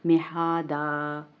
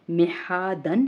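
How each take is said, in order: First: मेहादा with the n dropped, final aa held; waqf with madd. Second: मेहादन slowly, final -an with n sounded; full tanween ending. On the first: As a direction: stretch the ending of मेहादा into a long aa. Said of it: "अलिफ मद्दा जितना लंबा खींच". (मेहादा, आख़िरी अलिफ खींचकर) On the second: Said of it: "वक्फ की सूरत में ये बन जाएगा". (मेहादन, दो ज़बर की तनवीन के साथ) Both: Shown as a demonstration.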